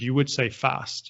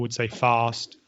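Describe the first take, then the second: First: It is said in a Midlands English accent. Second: It is said in a posh southern English accent. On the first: "where I'm from, in the Midlands" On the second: "The Queen, for example"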